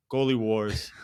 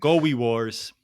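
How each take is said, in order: First: Said in the usual way. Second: "Goalie" said as "gowie", l turned to w; speech impediment. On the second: Shown as a demonstration. Host mocking own slip, "Goalie" as "gowie". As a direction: soften the l in "Goalie" into a w. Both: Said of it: "My speech impediment just came out".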